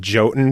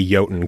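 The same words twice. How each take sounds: First: "Jotun" as JOE-tun; Jotun with a J sound. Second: "Jotun" as YOH-tun; correct Jotun, Y sound. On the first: Host quoting the developers, "Jotun" as JOE-tun. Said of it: "developers actually said Jotun because". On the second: Host giving the proper name, "Jotun" as YOH-tun. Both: Shown as a demonstration.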